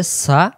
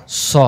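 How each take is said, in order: First: সা with a light s and open a; thin sin. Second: স as a full, round "so"; heavy sad. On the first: Teacher contrasting sin with sad, thin sound. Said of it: "সিন জবর সা". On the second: Teacher contrasting sad with sin, heavy sound. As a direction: round and thicken স. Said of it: "সদ জবর স". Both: Shown as a demonstration.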